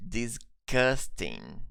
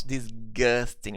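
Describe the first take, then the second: First: "disgusting" with a K for the G, dis-KUS-ting; K sound in disgusting. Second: "disgusting" with a voiced hard G, diz-GUS-ting; G sound in disgusting. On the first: Teacher modelling pronunciation for learners, "disgusting" with a K sound. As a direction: slowly split "disgusting" as dis, then kusting with a crisp k. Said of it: "We pronounce it with a K sound". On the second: Teacher showing learners how not to say it, "disgusting" with a G sound. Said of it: "pronounce disgusting with a G sound". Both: Shown as a demonstration.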